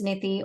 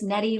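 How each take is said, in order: First: The word is said with its original pronunciation. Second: The word is said the common local way.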